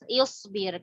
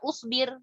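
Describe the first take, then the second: First: The word begins with an i vowel. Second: The word begins with an u vowel. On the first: The speaker calls it right. "Hamzahnya juga ikut dibaca kasroh" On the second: The speaker calls it wrong. "bukan usbir"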